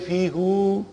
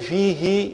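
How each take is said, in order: First: The final pronoun ends with an oo vowel. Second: The final pronoun ends with an ee vowel. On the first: The speaker calls it wrong. "we don't say fi, who" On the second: The speaker calls it right. "we say fi, he"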